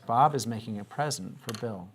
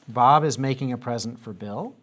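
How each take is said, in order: First: The voice falls at the end. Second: The voice rises at the end. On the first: It is a statement. The speaker calls it right. "our voice goes a little bit down at the end" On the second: It sounds like a question. The speaker calls it wrong. "Did it sound like I was asking a question?"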